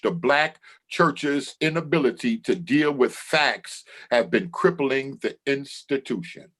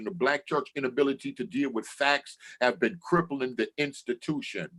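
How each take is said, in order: First: It is read slowly. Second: It is read at a normal pace.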